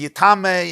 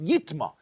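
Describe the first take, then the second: First: The word is said with three syllables. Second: The word is said with two syllables. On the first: It makes other things impure. "Yitma can be pronounced as Yitame" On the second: Only this thing becomes impure, excluding others. "it's pronounced yitma"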